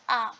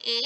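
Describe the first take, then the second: First: A said as an open "ah"; grave-accent pronunciation. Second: A said as "ay"; grave-accent pronunciation. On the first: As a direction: say A like the vowel in "father". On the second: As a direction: say A like the vowel in "day". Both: Shown as a demonstration. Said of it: "this is pronounced as".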